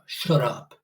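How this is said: The voice sounds strong and commanding. The speaker felt confident. "It used to sound like Zerka"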